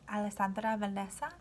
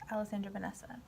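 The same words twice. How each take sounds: First: The name is said with a Spanish accent. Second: The name is said with an English accent. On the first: This is how family members say it. "spoken with the proper accent" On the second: This is the everyday form used in English. "when I'm just speaking in English"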